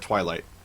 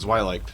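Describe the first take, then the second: First: The name begins with a T sound. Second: The name begins with a Z sound.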